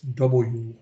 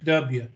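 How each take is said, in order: First: The letter is said the standard way, 'double-u'. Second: The letter is said the local way, 'dubya'.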